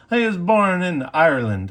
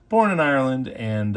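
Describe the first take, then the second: First: A clumsy attempt at an Irish accent, higher and louder; lightly put-on Irish lilt he then mocks himself for; bad Irish accent. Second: Said in the usual way. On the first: Telling viewers about Archer's birthplace in a bad Irish accent. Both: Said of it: "That's a horrible accent".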